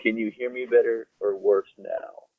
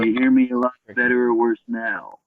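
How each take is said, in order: First: Muffled bad mic sound. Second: Louder, clearer mic sound; better mic. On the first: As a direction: voice through a poor microphone. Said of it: "definitely a lot worse than it was". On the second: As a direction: voice through a better microphone. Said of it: "Better now". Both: Real, not acted.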